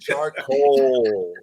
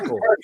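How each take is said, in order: First: The second syllable's O vowel is held full. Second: The second syllable's vowel is reduced and short. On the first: "I can hold the O if you want me to" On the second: "I say charcoal"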